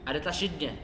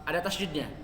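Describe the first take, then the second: The two takes are said the same way.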